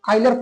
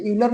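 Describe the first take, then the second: First: आयलर read as "OY-ler", the accepted reading; corrected pronunciation. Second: यूलर read as "YOO-ler", the rejected reading; spelling pronunciation. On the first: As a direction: say आयलर with an opening "oy" sound. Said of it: "वैसे आयलर पढ़ते हैं". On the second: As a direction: say यूलर with an opening "yoo" sound. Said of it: "इसे यूलर नहीं पढ़ते हैं". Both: Shown as a demonstration.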